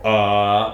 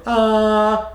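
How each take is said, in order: First: "Ah" held on a low sung note; sung, intone "Ah" low and level; sung low, the wrong way. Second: "Ah" held on a high sung note; sung, the wrong way. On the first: Coach shows the other mistake, low sung "Ah". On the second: Coach shows students what to avoid, high sung "Ah". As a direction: sing "Ah" high and level. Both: Shown as a demonstration. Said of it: "We don't wanna sing the sound".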